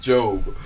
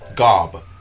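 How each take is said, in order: First: The name starts with a J sound. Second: The name starts with a hard G sound. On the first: "It's pronounced Job" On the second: "It's G O B. Gob, but"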